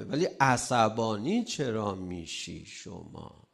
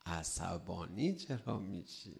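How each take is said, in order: First: Said in the usual way. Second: Repeated softly and slowly, almost to himself; a quiet, slow echo of the question. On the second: Shown as a demonstration. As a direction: drop the voice and ask it again gently. Same question repeated much softer.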